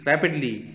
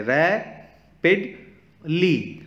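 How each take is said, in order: First: Said in the usual way. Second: rapidly stretched slowly over three separate beats, higher pitched; syllable by syllable. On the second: Shown as a demonstration. Teacher counting vowel sounds for kids, rapidly split syllable by syllable. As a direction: break rapidly into रै, पिड, ली with pauses. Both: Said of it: "vowel sound निकल रहे हैं".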